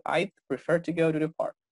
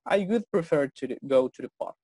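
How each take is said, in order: First: "I'd" said with a clearly audible final D; contracted I'd, D marked. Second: "I would" said out in full, not shortened, slow and careful; full form would. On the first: Teacher showing the class the contracted form, D clearly marked. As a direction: sound the D at the end of "I'd" before prefer. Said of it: "Cuidado aquí con la pronunciación de esta D, ya tiene que marcarse".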